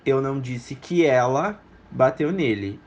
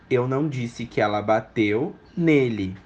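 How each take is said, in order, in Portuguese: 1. A palavra ela é enfatizada. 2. A palavra nele é enfatizada. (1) "Eu disse que alguém bateu nele, não especificamente ela" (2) "Nele não, mas ela pode ter batido"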